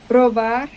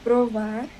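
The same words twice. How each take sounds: First: The middle consonant sounds like a b. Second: The middle consonant sounds like a v. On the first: The speaker calls it wrong. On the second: The speaker calls it right.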